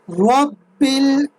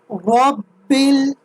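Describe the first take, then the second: First: The b sound is held and doubled. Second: The same.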